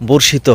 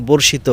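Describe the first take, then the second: Both takes have the same delivery.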